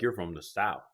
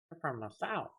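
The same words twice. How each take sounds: First: Said in the usual way. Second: High, soft mocking quote; light, high-voiced Northerner impression; mimicked Northerner. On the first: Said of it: "They don't say it like a Southern". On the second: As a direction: imitate a Northerner remarking, pitched up and softer. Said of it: "When I go up north, they're like".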